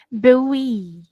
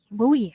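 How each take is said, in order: First: Buoy said as bewi; teacher modelling buoy. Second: Buoy said as buwi; Buoy with a long u, buwi; teacher repeating buoy. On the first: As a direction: say buoy like bewi, two syllables. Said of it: "pronunciation is". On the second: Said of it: "cara bacanya ya". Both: Shown as a demonstration.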